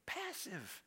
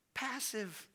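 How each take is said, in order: First: Hushed second Passive; quiet echo. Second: Said in the usual way. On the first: Shown as a demonstration. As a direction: let Passive fall away softly.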